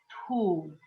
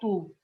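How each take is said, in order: First: The t is said with a puff of air. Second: The t is said without a puff of air. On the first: The speaker calls it right. "A gente fala como se a gente estivesse soltando o ar" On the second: The speaker calls it wrong. "Não tu"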